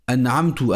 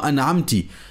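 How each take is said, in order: First: The word ends with a u vowel. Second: The word ends with an i vowel. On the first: "avec le son ou, avec la dhamma" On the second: "avec le son i avec la kasra"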